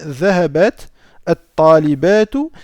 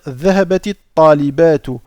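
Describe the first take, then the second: First: The first word ends on a bare t sound. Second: The first word ends in an i linking onward. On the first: "si je ne fais pas la liaison" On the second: "lorsqu'on va faire la liaison, on va rendre ici ce sakin en kasra"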